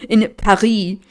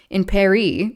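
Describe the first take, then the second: First: Paris in a French accent, silent S. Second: Paris in an American accent, final S sounded. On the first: Shown as a demonstration. Reader correcting their slip, French accent on "Paris". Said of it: "switched from a French accent". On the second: Real, not acted. Reader slipping out of French after "Français", American accent on "Paris". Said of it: "switched from a French accent to do an American accent saying Paris".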